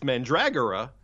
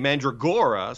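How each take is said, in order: First: The stress falls on a syllable before 'gor'. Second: The stress falls on the 'gor' syllable. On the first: The speaker calls it right. "it's Mandragora" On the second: The speaker calls it wrong. "they say Mandragora, so they got the word gore, you know, on the accents on gore"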